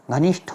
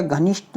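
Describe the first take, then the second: First: "घनिष्ठ" ending in breathy ṭh; aspirated "घनिष्ठ". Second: "घनिष्ठ" ending in plain ṭ; unaspirated "घनिष्ठ". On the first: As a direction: let air out on the ठ of घनिष्ठ. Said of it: "होता है". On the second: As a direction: say घनिष्ठ with no breath on the last sound. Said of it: "नहीं होता". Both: Shown as a demonstration.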